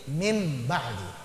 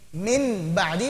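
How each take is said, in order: First: The word ends with an m sound before b. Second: The word ends with an n sound before b. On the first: "jadi m" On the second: "Yang tadinya n"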